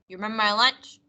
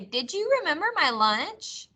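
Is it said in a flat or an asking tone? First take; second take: flat; asking. First: It is said in a flat, statement-like tone. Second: It is said in a questioning, asking tone.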